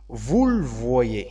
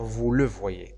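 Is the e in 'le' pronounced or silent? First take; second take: silent; pronounced. First: The e of le is silent. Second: The e of le is pronounced. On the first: The speaker calls it right. "Donc on dit" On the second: The speaker calls it wrong. "Il faut pas dire"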